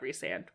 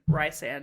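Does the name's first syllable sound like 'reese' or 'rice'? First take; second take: reese; rice. First: The first syllable sounds like 'reese'. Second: The first syllable sounds like 'rice'. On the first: This is the name's official pronunciation. "not Rysand" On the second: This is how the speaker first read the name. "it should have been Rysand"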